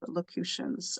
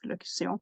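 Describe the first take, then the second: First: The word is said with an English pronunciation. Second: The word is said with a French pronunciation. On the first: The speaker calls it wrong. "I know I'm not pronouncing this uh, right" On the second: The speaker calls it right. "In French, it's locution"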